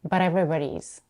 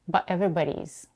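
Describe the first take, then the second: First: The t is a quick flap. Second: The t is a brief glottal stop. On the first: "Another very popular way would be using the flap T" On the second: "she stops her voice when she says but"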